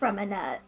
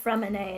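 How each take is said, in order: First: The name ends with an audible t sound. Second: The name ends without a final t sound. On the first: The speaker calls it wrong. "not Freminette" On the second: The speaker calls it right. "it was pronounced Fremine"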